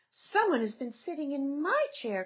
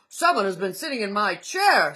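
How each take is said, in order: First: It is said in a wee small voice. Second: It is said in a great big voice.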